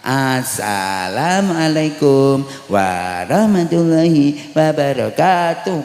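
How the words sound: It has a childish singsong melody.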